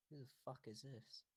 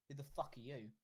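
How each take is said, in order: First: Soft, discreet question into an ear; hushed aside. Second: Moderately raised, blunt challenge; said loudly. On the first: Yen leans into Yenarin's ear, hushed. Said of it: "Yen leans into Yenarin's ear and goes". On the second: Yen openly challenges the stranger, loudly. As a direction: ask it out loud for the room to hear. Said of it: "and she says loudly". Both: Acted.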